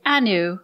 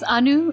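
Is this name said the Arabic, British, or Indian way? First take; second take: British; Indian. First: The name is said with a British pronunciation. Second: The name is said with its Indian pronunciation. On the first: This is how British classmates said it. The speaker calls it wrong. "the British kids would say Anu. I didn't like it" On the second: This is the name's own correct form. The speaker calls it right. "It's [name]"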